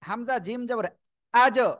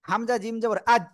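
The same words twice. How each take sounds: First: The final consonant is released with a quick bounce. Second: The final consonant is held without a bounce. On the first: The speaker calls it right. "শক্তভাবে ধাক্কা দিয়ে" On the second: The speaker calls it wrong. "এই যে ধরে রাখা যাবে না"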